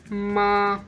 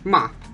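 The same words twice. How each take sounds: First: The pitch stays high and level. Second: The pitch falls sharply and cuts off. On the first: "There is a flat tone" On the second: "the last one is a falling tone"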